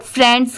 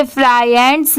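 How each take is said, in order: First: "फ्रेंड्स" as one syllable with short e; correct joined reading. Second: "फ्राई एंड्स" as two parts, fry plus ends; wrong split reading. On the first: Teacher giving learners the real sound, correct joined reading. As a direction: say "फ्रेंड्स" joined, no fry vowel. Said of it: "इसकी sound फ्रेंड्स की आएगी". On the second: Teacher warning learners off a misreading, wrong split reading. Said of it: "इसे फ्राई एंड्स नहीं पढ़ेंगे". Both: Shown as a demonstration.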